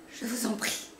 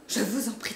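First: Pleading. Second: Louder pleading. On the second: Cousin begs the narrator again, louder and urgent. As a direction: stress on vous, pushed out louder. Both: A narrator's reading. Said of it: "cri de souffrance".

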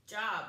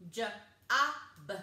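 First: Said in the usual way. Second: J-O-B as juh, short vowel, buh; chopped-up sounds. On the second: Shown as a demonstration. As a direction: break J-O-B into separate sounds. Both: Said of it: "and chop it up".

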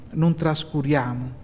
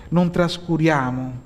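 No difference in how they are said.

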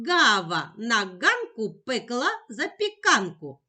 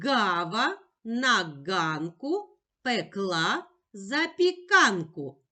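First: Quicker, connected tongue twister; швидше. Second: Slow tongue twister with pauses between words; повільна скоромовка. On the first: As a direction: run the words together a bit faster. (швидше, майже без пауз) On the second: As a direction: recite slowly for a child to repeat. (повільно, з паузами між словами) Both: Shown as a demonstration. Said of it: "А тепер швидше".

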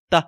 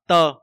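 First: Short tơ, skimmed over; light neutral tơ. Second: Tơ held out as in silk; wrong level tơ. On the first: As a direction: say tơ briefly and let go. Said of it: "Đọc rất là nhẹ nhàng lướt qua". (tơ nhẹ nhàng lướt qua) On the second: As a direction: demonstrate tơ too long and level. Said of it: "không nên đọc là tơ". (tơ ngang, cách đọc sai) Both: Shown as a demonstration.

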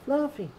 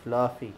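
First: Fluffy called much higher, falling off; high sing-song call. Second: Said in the usual way. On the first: Real, not acted. Calling the cat on the floor, high sing-song.

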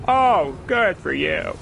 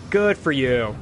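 First: Slow, drawn-out mock praise "Oh, good for you."; mock congratulation, very slow; sarcastic. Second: Said in the usual way. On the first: Real, not acted. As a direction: stretch it out sarcastically. Sarcastic remark at game.

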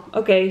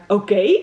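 First: Said in the usual way. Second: Louder, mock-jubilant cry with a lift; lightly acted whoop of agreement; cheering. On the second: A narrator's reading. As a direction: cheer it out as the delighted child. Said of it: "Roos juichend".

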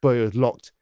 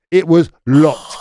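First: Said in the usual way. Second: "It was locked" slow and louder, stressing "locked"; slow, weighty repeat of "It was locked"; emphatic repeat. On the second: Real, not acted. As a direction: land "locked" hard and slow in disbelief.

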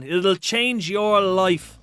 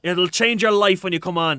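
First: "It'll change your life" stretched out slowly, each word weighed; slow emphatic repeat. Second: Said in the usual way. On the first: Shown as a demonstration. Urging a viewer to buy a PC, slow and emphatic. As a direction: drag out "change your life" to drive it home.

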